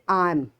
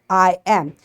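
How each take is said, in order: First: It is said as one short contracted syllable. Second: It is said as two separate full words.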